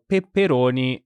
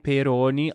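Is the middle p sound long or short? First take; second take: long; short. First: The middle p sound is long and doubled. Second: The middle p sound is short and single. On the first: It means spicy sausage. "I'm just doubling the piece here to make sure you hear the difference" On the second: It means bell peppers. "pepperoni with one P"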